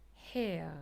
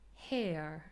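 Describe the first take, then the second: The two takes are said the same way.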